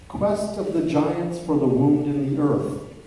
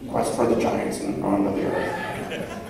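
First: It is said in his normal voice. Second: It is said in a put-on voice.

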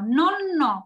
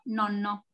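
First: The word is said slowly and carefully. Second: The word is said quickly. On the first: "¿cómo dice [name]?" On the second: "Y rápido"

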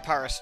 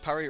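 First: Paris is said with a British pronunciation. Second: Paris is said with a French pronunciation. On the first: "the British say Paris generally" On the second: "For the French, it's Paris"

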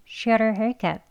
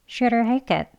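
The two takes are said the same way.

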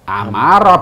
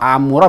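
First: The vowel after the m is a. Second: The vowel after the m is u. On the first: The speaker calls it right. "Amaro betulnya" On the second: The speaker calls it wrong. "membaca amuro salah"

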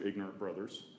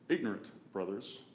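First: The words run together without a pause. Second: There is a pause between the words.

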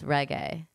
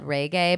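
First: The word is said with the standard pronunciation. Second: The word is said with a Midwestern pronunciation. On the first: The speaker calls it right. "but it's reggae" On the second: The speaker calls it wrong. "I'm from the Midwest and we said reggae"

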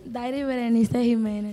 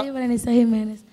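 First: It is said more slowly. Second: It is said at normal speed.

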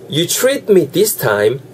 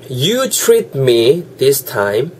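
First: It is said at normal speed. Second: It is said more slowly.

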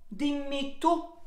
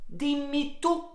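No difference in how they are said.

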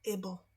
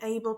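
First: It is said as a weak, reduced ending. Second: It is said fully, like the word able. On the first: The speaker calls it right. "tylko able" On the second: The speaker calls it wrong. "Czyli nie able"

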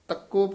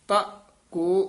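First: The syllables are run together as one word. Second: The syllables are said as two separate words. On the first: The speaker calls it wrong. "ਇਹ ਤੱਕੋ ਪਾਠ ਨਹੀਂ ਕਰ ਦੇਣਾ" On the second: The speaker calls it right. "ਵੱਖਰਾ ਪਾਠ ਹੈ ... ਇਸ ਤਰ੍ਹਾਂ ਬੋਲਣਾ"

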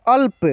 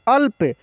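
No difference in how they are said.

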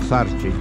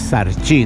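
First: The stress is on the first syllable. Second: The stress is on the last syllable. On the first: The speaker calls it wrong. "no Sarchi, como digo yo" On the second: The speaker calls it right. "porque es Sarchi"

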